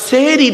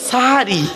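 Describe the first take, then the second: First: The first vowel is an e sound. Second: The first vowel is an a sound. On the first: It refers to doing magic. The speaker calls it wrong. "দন্তেশ্বয় একার নয়" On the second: It refers to the meal at night's end. The speaker calls it right. "দন্তেশ্বয় আকার"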